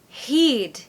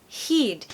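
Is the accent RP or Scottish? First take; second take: Scottish; Scottish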